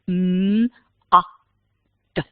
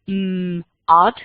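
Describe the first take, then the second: First: The word is split into three separate sounds. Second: The word is split into two parts. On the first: Each letter gets its own sound. The speaker calls it right. "for each letter, there's a letter sound" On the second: The word is split into an opening sound and an ending chunk. The speaker calls it wrong. "we wouldn't say mm, ud"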